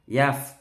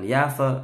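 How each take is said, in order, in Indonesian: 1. Konsonan terakhir berhenti dengan bersih, tanpa memantul. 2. Konsonan terakhir dilepas dengan memantul. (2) "Salah, tidak boleh mantul"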